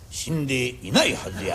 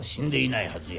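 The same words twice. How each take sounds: First: 死んでいない run together, meaning not dead; 死んでいないはずや in one smooth phrase, stress on な; joined reading. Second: 死んで、いないはずや with a break after 死んで; split reading. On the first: Fortune teller gives the still-alive reading in one breath. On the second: Fortune teller slips the dead reading in with a pause. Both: Shown as a demonstration. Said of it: "どないでもなりまんねん".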